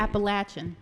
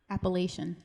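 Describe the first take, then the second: First: "Appalachian" with short a, as in latch; variant pronunciation. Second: "Appalachian" with long a, as in lay; variant pronunciation. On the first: Trying both ways of saying Appalachian, short-a "Appalachian". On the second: Trying both ways of saying Appalachian, long-a "Appalachian". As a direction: say "Appalachian" as appa-LAY-shun. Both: Shown as a demonstration. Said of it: "I've heard it both ways".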